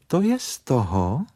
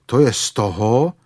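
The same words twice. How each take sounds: First: A touch of sharpness, higher; sharply. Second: A mild grumble, lightly voiced; grumbling. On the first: Rabbit snapping back at Pooh that he ate too much, lightly sharp. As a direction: retort sharply to the bear. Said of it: "řekl králíček příkře". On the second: Pooh grumbling at the rabbit about the small door, mildly sulky. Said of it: "bručel Pů". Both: A narrator's reading.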